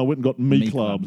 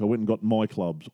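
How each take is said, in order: First: The word before clubs sounds like 'me'. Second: The word before clubs sounds like 'my'. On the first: "instead of my" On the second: "we've been saying my instead of me"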